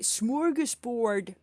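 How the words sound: It is said with an American English pronunciation. The speaker calls it wrong. "Americans say smorgasbord"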